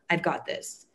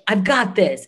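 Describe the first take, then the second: First: It sounds smug and self-important. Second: It sounds eager and fired up. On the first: The person thinks their experience makes them above it. The speaker calls it wrong. "I'm the C M O. I I've been doing this for ten years and know what I'm doing" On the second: The person is driven and eager to take part. The speaker calls it right. "that's not an ego, that's enthusiasm. That is like fire"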